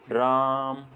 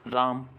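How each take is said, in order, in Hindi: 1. स्वर थोड़ा ज़्यादा देर तक रखा जाता है। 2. स्वर बस थोड़ी देर के लिए बोला जाता है। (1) "दूसरी बार में थोड़ा ज़्यादा समय लगा" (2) "उच्चारण करने में मुझे कम समय लगा"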